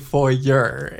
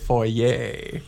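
First: Foyer is said the way Americans say it. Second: Foyer is said the non-American way. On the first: The speaker calls it wrong. "It is not called a foyer" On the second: The speaker calls it right. "It is a foyer"

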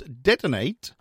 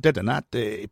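First: It is pronounced the English way. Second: It is pronounced the Spanish way.

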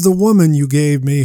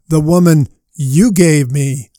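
First: The emphasis falls on the word woman. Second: The emphasis falls on the word you. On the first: The woman is to blame. "they almost always read it like this" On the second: The one who gave her is to blame. "What if you read it this way?"

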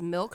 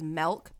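First: The vowel is a short 'ih' sound. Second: The vowel is a short 'eh' sound. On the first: "Like when she says milk" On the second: "she says melk"

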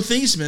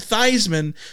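First: The name does not rhyme with Heisman. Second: The name rhymes with Heisman. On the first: This is the name's original pronunciation. "His name is Joe Theismann" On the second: This pronunciation was adopted for publicity. "so it would rhyme with the Heisman"

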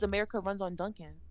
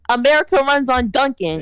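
First: It is said at normal conversational volume. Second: It is said at its loudest, almost shouted.

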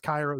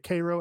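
First: Cairo is said the usual Egyptian way. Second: Cairo is said the Illinois local way. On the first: It names the city in Egypt. "So it's Cairo, Egypt" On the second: It names the town in Illinois. "They say Cairo, Illinois"

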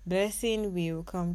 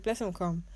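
First: The word will is said in full. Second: Will is contracted and merged into the name. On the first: "we don't usually say" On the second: "just say"

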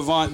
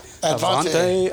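First: The name ends without an extra final syllable. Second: The name ends with an extra 'ay' syllable. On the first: The speaker calls it right. "I'm going to get his name right" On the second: The speaker calls it wrong. "the PA announcer at Sheridan never got it right"

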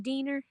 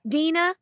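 First: The name ends in a British-style 'er' sound. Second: The name ends in a plain 'a' vowel.

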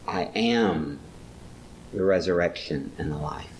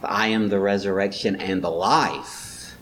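First: The stress is on the word am. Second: The stress is on the word life. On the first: It is a present reality, not a future one. "it's not a future, it's a present reality" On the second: The point is the life; the resurrection is only the first step. "but he really wants to stress the life"

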